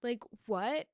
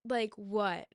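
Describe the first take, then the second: First: Rising, baffled "what?"; disbelief. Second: Falling, deadpan "what"; flat disbelief. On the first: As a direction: ask "Like, what?" with a rising, incredulous "what". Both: Real, not acted. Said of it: "was telling me that I need to be okay".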